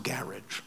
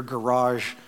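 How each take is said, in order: First: Garage said the British way, stress up front, GA-ridge; English pronunciation. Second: Garage said the American way, stress on the end, guh-RAHZH; American pronunciation. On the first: English bell ringer correcting the American, garage as GA-ridge. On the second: American visitor to English bell ringer, garage stressed on second syllable. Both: Retold or imitated. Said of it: "it's pronounced garage".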